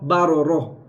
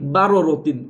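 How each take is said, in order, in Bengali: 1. শব্দটি h ধ্বনিতে শেষ হয়। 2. শব্দটি tin ধ্বনিতে শেষ হয়।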